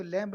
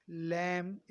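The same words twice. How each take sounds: First: "लैम्प" with an audible b after the m; wrong, b pronounced. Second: "लैम्प" ending on m, like "lem"; silent b. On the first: Teacher shows how not to read it, b sounded in "लैम्प". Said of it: "इसको लैम्प नहीं पढ़ते". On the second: Teacher models the word for students, "लैम्प" with silent b. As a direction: say "लैम्प" closing on m with no final stop. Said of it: "बी हो जाता है silent". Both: Shown as a demonstration.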